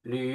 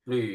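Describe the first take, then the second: The two takes are said the same way.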